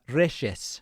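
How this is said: The name is said with an Argentine accent.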